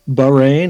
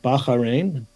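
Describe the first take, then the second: First: The name is said the usual American way. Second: The name is said the local Bahraini way.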